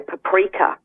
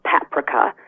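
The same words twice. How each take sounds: First: The stress falls where American speakers put it. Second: The stress falls where non-American speakers put it. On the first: "the Americans say" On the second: "like we say"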